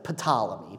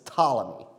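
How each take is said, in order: First: The initial P sound is pronounced. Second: The initial P sound is silent. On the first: The speaker calls it wrong. "Looks like Ptolemy" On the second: The speaker calls it right. "So it's Ptolemy"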